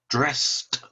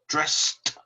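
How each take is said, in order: First: The word is said as one syllable. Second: The same.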